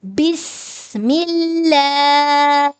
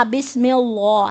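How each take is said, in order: First: بسم اللہ with a light, thin lam, recited slowly; correct thin lam. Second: بسم اللہ with the lam wrongly made thick and heavy after the kasra. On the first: Teacher giving students the correct recitation, with a thin lam. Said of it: "کو باریک پڑھیں گے". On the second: Teacher imitating a student's mistake, a wrongly heavy lam. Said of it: "وہ wrong پڑھتا ہے". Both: Shown as a demonstration.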